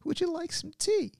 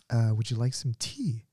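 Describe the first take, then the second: First: Put-on very high, frail old lady offering tea; sweet, quavery granny offer; grandma offering tea, very high and sweet. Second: Said in the usual way. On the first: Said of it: "this is a grandma". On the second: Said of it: "She's like".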